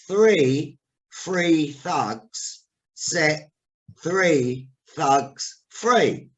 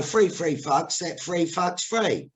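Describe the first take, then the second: First: THREE and THUGS drawn out slowly with th; very slow voice-teacher diction, each word separate; careful elocution. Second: THREE said as "free", THUGS as "fugs"; slow Cockney reading, THREE and FREE sounding identical; Cockney th-fronting. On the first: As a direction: enunciate "Three free thugs" word by word, unhurried. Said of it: "there was a voice teacher there". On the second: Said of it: "And I used to go". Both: Retold or imitated.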